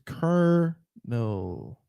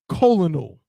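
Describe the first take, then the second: First: It is said with two syllables, like kernel. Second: It is said with three syllables, co-lo-nel. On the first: The speaker calls it right. "It's kernel, like a kernel of corn" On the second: The speaker calls it wrong. "is not colonal"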